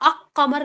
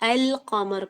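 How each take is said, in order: First: The L merges into the following K sound. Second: The L is clearly pronounced before the K. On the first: The speaker calls it wrong. "अक कमर नहीं पढ़ा मैंने" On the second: The speaker calls it right. "अल कमर पढ़ा है, लाम को छोड़ा नहीं"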